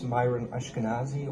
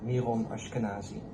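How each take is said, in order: First: The name is said the non-European way. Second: The name is said the European way. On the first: "so I will pronounce it correctly" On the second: "if you would say it in Europe, it's more"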